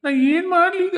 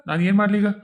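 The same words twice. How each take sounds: First: Very high, sobbing break on ಮಾಡ್ಲಿ; hammed-up crying wail; comic wail. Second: Said in the usual way. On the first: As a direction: blubber the question like a crybaby ghost. Ghost lamenting, repeated.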